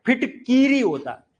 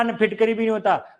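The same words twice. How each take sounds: First: फिटकीरी with a long ई in the middle, phiṭ-kī-ri; correct form. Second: फिटकरी said quickly with short i, phiṭ-ka-ri; wrong form said. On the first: Teacher gives students the correct form, stressing the long vowel. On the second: Teacher shows the class the common wrong form, quickly. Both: Shown as a demonstration.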